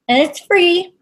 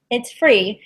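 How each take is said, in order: First: High, bright emphasis on free; excited. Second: Said in the usual way. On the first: Real, not acted. Psychic hyping a free reading to viewers, excited.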